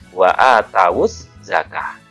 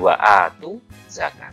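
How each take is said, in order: First: The word is read with three syllables, 'a-ta-wu'. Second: The word is read with two syllables, 'a-tu'. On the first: The speaker calls it right. "Huruf tak dibaca fathah. Huruf wawu dibaca dhammah" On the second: The speaker calls it wrong.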